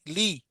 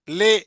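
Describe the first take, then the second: First: The syllable ends in an 'ee' vowel. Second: The syllable ends in an 'ay' vowel. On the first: The speaker calls it right. "क्या पढ़ना है? ली।" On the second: The speaker calls it wrong. "ले नहीं पढ़ना"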